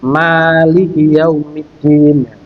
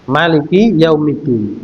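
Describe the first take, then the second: First: The first vowel of Maliki is held long. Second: The first vowel of Maliki is said short. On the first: "menunjukkan cara bacanya panjang, ya, dipanjangkan" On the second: "boleh dibaca pendek"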